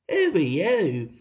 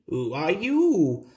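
First: "Who" pitched up, then falling away; stress on WHO. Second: Storybook reply with the weight on "you"; stress on YOU. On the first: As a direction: lead hard on "Who" in a storybook question. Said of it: "said Thomas". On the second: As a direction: hand the question back, leaning on "you". Bertie returns Thomas's question. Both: A narrator's reading.

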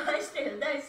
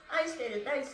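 Both takes have the same delivery.

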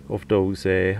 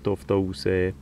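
Both takes have the same delivery.

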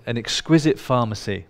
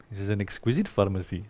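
First: Said in the usual way. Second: Soft, lower Indian-accented imitation; playful Indian accent, said quietly; Deepak Chopra. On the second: Speaker quotes a lecturer to the audience, imitating his Indian accent. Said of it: "It's great how he says it".

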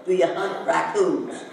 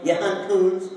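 First: Said in the usual way. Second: You hunt coons with coons stressed and raised; clipped question. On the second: Shown as a demonstration. Teacher demonstrates to class, You hunt coons stressed. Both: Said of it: "a totally different thing from saying".

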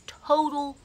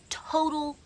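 The two takes are said the same way.

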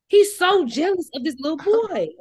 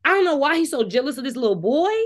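First: High, loud, incredulous repeat; exaggerated disbelief. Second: Said in the usual way. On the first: Real, not acted. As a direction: ham up the disbelief.

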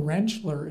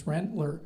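First: "Rentschler" with a sh sound before the ler; Pennsylvania Dutch pronunciation. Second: Said in the usual way. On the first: Shown as a demonstration. Doctor explaining his name to the crowd, "Rentschler" said with sh. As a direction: put a sh in the middle of "Rentschler". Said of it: "Rentschler is Pennsylvania Dutch". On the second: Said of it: "my name's Rentler".

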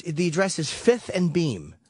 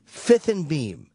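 First: Said in the usual way. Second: "Fifth and Beam" repeated slowly, each word spaced. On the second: Retold or imitated. CFO repeats the address slowly for emphasis. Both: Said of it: "He goes".

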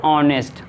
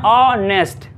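First: Said in the usual way. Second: honest in two parts, ऑ, then nest; split in two syllables. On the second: Shown as a demonstration. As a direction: sound out honest with a break after the long ऑ. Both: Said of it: "बांटते उसको double syllable में".

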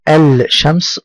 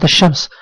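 First: "الشمس" with the l wrongly sounded, al-shams; wrong pronounced lam. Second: "الشمس" with silent lam, straight into a doubled sh; correct sun-letter assimilation. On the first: Teacher shows pupils the mistake, l wrongly voiced in "الشمس". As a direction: mispronounce "الشمس" as al-shams, l held clearly. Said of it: "لو قلت كلمة الشمس خطأ". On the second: Teacher gives the example word, correct silent lam in "الشمس". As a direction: say "الشمس" as ash-shams, no l heard. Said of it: "ننتقل من الألف إلى الشين مباشرة". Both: Shown as a demonstration.

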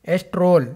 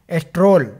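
No difference in how they are said.

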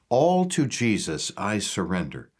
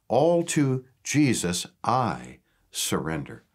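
First: Said in the usual way. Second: All drawn out slowly and weighted, the rest following; stress on All. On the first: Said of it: "I want to emphasize certain words". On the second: Shown as a demonstration. Pastor unpacking hymn lyrics for viewers, slow stress on All. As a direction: lean slowly into All, then let the line settle. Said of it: "The word all".

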